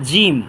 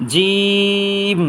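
First: Said in the usual way. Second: জিম with a very long, level "ee"; mid-palate, drawn out. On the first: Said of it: "এ হরফটার নাম হচ্ছে". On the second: Shown as a demonstration. Teacher models a letter for learners, stretched very long. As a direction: press mid-tongue to palate, then hold জিম. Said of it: "জিহ্বার মাঝখান তালুর মাঝখান থেকে".

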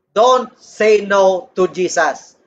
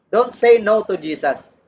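First: "Don't say no to Jesus." slowed right down, each word drawn out; slow, deliberate repeat. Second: Said in the usual way. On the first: Shown as a demonstration.

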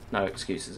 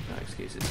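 First: Said in the usual way. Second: Unvoiced whispered repeat. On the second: Real, not acted. To a teammate, muttering no excuses in a whisper. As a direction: breathe the words out under the breath.

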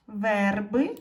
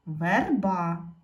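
First: "Верби" loud, with a stressed е; "Верби" with the weight on the first syllable. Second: "верба" stressed on the final а; "верба" with the weight on the last syllable; stress on second syllable. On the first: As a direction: put the beat on вер in "Верби". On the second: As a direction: put the beat on ба in "верба". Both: Shown as a demonstration. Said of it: "постав наголос".

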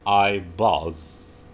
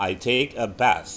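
First: "bath" ending in a voiced th, like bathe; "I bath" with a vibrating th; verb bathe. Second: "bath" as a noun, airy th. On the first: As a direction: buzz the th in "bath". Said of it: "Kalau mandi langsung kata kerja". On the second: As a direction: end "bath" on breath only. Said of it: "Mandi kata benda". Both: Shown as a demonstration.

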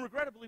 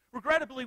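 First: Said in the usual way. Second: Regrettably said much louder, pressed hard; Regrettably, loud and weighty; emphatic. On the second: Shown as a demonstration. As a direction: punch Regrettably. Repeated word for emphasis.

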